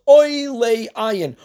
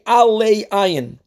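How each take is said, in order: First: The first word begins with an 'oy' vowel. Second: The first word begins with an 'a' vowel. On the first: It means rising above the eye. "pronounce it putting a cholam, a dot over the ayin" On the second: It means to the eye. "we say alei ayin, which means to the eye"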